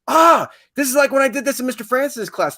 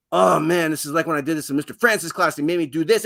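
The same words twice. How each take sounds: First: High, loud sudden recognition; student's bright aha moment, much higher and louder; excited student. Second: Quick, slightly raised rush of recognition; student tumbling over the memory, fast; eager student. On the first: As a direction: play a student who just remembered it, pitched up. Student recalling a past lesson. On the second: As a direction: rattle it off fast like an excited kid. Student recalling a past lesson, again. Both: Acted.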